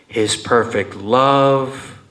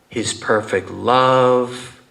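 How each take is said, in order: The two takes are said the same way.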